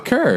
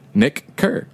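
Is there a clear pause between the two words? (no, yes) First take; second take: no; yes. First: The two words run together without a pause. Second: Each word is crisp, with a pause after it.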